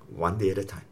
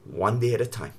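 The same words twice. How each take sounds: First: Lower, much softer repeat; fading, near-whispered reassurance; softer still. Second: Lower, softer reassuring words; calm a frightened man gently; quiet comforting voice of God; gentle reassurance. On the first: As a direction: let the words settle like a hush. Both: Retold or imitated. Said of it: "he just said this one word to me".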